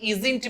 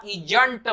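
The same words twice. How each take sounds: First: Isn't as iz-int with a z; correct pronunciation. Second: Isn't as ijant with a j; wrong pronunciation. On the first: Teacher reminding learners, correct pronunciation of isn't. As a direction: say isn't with a clean z sound. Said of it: "कहा था कि isn't बोलिएगा". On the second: Teacher showing what to avoid, wrong pronunciation of isn't. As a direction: say isn't as i-junt, j replacing z. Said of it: "isn't मत बोलिएगा". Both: Shown as a demonstration.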